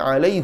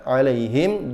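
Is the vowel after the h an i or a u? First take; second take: u; i. First: The vowel after h is a u. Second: The vowel after h is an i.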